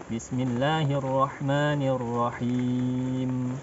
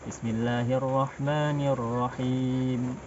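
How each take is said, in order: The two takes are said the same way.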